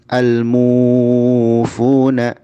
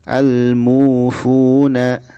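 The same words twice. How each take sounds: First: The long vowel is stretched out far too long. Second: The long vowel is held for two beats. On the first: The speaker calls it wrong. "jangan al-mufuna, jangan berlebihan" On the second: The speaker calls it right. "mimnya dia dua harokat"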